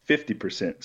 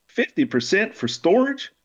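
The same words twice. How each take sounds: First: Said in the usual way. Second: Much higher, rising in disbelief; incredulous. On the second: Acted. Imaru repeats Spider's offer in high disbelief. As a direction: toss the number back, stunned.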